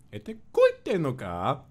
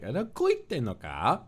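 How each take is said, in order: First: High, slow line with a rising "koite"; imitating Kotoka's little koi. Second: High, slow, trilling mock line; imitating the trill in "Ada koite no ka?"; imitating Kotoka's trill. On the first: Recalling the line that peaked the mic, high and slow. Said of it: "the little koi". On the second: Imitating a teammate's trill, high and slow. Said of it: "the kind of trill that Kotoka has in her voice".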